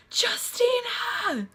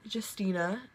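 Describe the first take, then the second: First: High, drawn-out cry for help; imitated scream. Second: Said in the usual way. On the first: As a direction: scream the name like someone crying for help. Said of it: "screamed. Like somebody was, like, crying for help". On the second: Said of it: "I hear my name".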